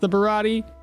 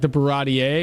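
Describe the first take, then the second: First: The name ends without an extra vowel sound. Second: The name ends with an extra vowel sound. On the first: The speaker calls it right. "I'm pretty sure it's just the Barati" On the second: The speaker calls it wrong. "The English is like the Barati A"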